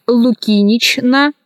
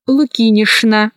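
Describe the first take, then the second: First: Лукинична cut as лукинич-на; spelling pronunciation. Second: Лукинична said as лукинишна; CHN as SHN. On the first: Teacher showing how лукинична is written, spelled-out reading. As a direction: keep a clear Ч in лукинична. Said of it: "Пишется". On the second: Teacher showing how лукинична is pronounced, SH sound. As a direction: use Ш for Ч in лукинична. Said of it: "произносится". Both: Shown as a demonstration.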